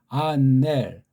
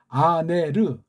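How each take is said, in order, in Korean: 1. 이 단어는 l 같은 받침으로 끝나요. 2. 마지막 r 다음에 짧은 모음이 와요. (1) "그렇게 받침을 명확히 할 수가 없어요" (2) "헬렌말 발음법이고"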